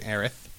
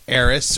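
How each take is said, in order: First: The name ends with a th sound. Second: The name ends with an s sound.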